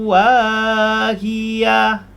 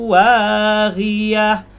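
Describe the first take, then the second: Both takes have the same delivery.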